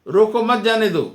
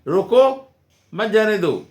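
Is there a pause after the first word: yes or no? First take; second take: no; yes. First: It runs on with no pause after the first word. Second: There is a short pause after the first word. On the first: Do not stop it, let it go. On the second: Stop it, do not let it go.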